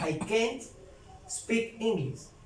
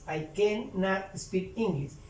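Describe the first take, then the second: First: The negative is contracted, with the final T sounded. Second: The negative is said in full, as two syllables.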